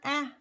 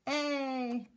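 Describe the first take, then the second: First: The vowel is said as a short sound. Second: The vowel is said as a long sound. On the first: "We always say the short vowel sound first" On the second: "then the long vowel sound"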